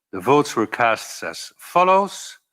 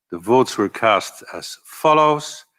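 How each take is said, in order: The two takes are said the same way.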